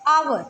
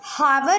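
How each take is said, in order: First: The word begins with a vowel sound. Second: The word begins with an h sound. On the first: The speaker calls it right. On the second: The speaker calls it wrong.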